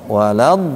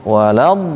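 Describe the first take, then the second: The two takes are said the same way.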